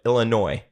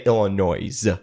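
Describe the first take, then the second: First: The final S is left silent. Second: The final S is pronounced aloud. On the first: The speaker calls it right. "I don't know why the S is there, but" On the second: The speaker calls it wrong. "Don't say"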